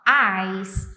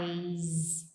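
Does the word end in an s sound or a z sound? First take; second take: s sound; z sound. First: The word ends with a hissing s sound. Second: The word ends with a buzzing z sound. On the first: It means ice. The speaker calls it wrong. "meio que um som de S" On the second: It means the eyes. The speaker calls it right. "Um sonzinho de Z no final"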